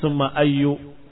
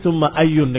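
First: The word ends with a short -u vowel. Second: The word ends with a final -un sound. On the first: The word is treated as annexed to an implied word. The speaker calls it wrong. "dibaca summa ayyu karena takdir mudhaf" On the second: The word stands alone, not annexed to another. The speaker calls it right. "dengan tanwin, karena dia dalam keadaan tidak dimudhafkan"

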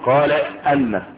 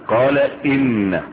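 First: The hamza after qala has an a vowel. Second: The hamza after qala has an i vowel. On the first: The speaker calls it wrong. "بعض الناس وبعض المتحدثين يقولون قال ان، هذا خطأ" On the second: The speaker calls it right. "الهمزة التي تقع في مقول القول تبقى ايه؟ مكسورة"

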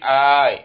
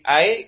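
First: The first vowel is drawn out long. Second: The first vowel is short. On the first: "Kalau mamdud dah berarti ai" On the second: "maksurah berarti ai"

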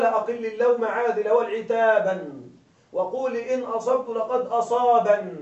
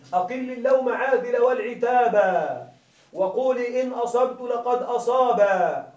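First: The rhyme words end in an n sound. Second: The rhyme words end in a lengthened vowel. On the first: "فحذف حرف العلة ووضعت النون في مكانه" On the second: "لما أشبعنا الحركة أصبحت حرف علة"

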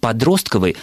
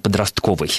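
First: The stress falls on the second syllable. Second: The stress falls on a later syllable.

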